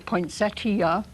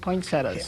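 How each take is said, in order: First: An 'ee' sound is heard before the final vowel. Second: No 'ee' sound is heard before the final vowel. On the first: "There is an I in the word. poinsettia would be uh, the proper way" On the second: "there are a lot of people that still call them poinsettias"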